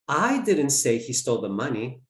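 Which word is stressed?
I. The word 'I' is stressed. Someone else said it. "Someone else did"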